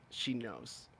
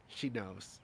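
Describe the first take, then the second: No difference in how they are said.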